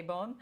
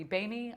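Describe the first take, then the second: First: Boehm as a single syllable; preferred pronunciation. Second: Boehme said as two syllables; alternative pronunciation. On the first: Speaker settling on her own way to say the philosopher's name, Boehm in one syllable. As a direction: end Boehm on the m, no extra vowel. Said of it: "I say Boehm". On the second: Speaker offering another way to say the philosopher's name, Boehme in two syllables. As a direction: sound the final e of Boehme as an extra syllable. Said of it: "It might be Boehme". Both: Shown as a demonstration.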